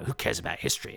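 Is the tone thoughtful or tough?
tough. The line is said in a gruff tone. "more of a sort of tough guy nation chewing a cud, you know, phlegmy, spitty"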